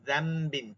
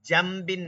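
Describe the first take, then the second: First: The word begins with a z sound. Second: The word begins with a j sound. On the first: The speaker calls it right. "না কিন্তু যামবিন" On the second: The speaker calls it wrong. "জামবিন না কিন্তু"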